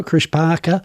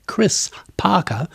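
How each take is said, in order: First: Chris with a slushy lisped S, like Chrish; lateral lisp. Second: Chris said slowly with a crisp S; clear S. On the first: Real, not acted. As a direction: Chris said with the S smeared sideways into sh. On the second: Shown as a demonstration. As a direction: Chris Parker, the S carefully clean and sharp. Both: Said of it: "that's me doing a slushy S again".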